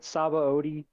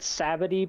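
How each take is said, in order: First: The name ends with an 'oh-dee' sound. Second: The name ends with a short 'tee' sound. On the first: This is how the show says it. "they call it Sabaody" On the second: This is how the other person reads it. "you said Sabity"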